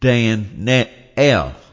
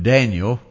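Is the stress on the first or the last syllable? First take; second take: last; first. First: The stress is on the last syllable. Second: The stress is on the first syllable. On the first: The speaker calls it right. "You always put the accent on the E-L" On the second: The speaker calls it wrong. "we say in English"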